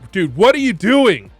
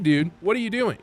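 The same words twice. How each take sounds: First: It is said in an angry, accusing tone. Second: It is said in a calmer, friendlier tone. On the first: The speaker is annoyed and picking a fight. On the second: The speaker is asking more gently.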